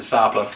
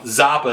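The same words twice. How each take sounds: First: The word begins with a hissing s sound. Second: The word begins with a buzzing z sound. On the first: "I pronounce it Zappa in Spanish because your Z is pronounced like an S" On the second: "Zappa is how you might pronounce it"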